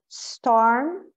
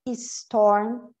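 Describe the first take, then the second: First: The word starts directly with a blown s. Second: An extra 'i' vowel is added before the s. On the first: The speaker calls it right. "Eu vou soprar... Então é storm" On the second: The speaker calls it wrong. "colocarmos um I na frente, como storm"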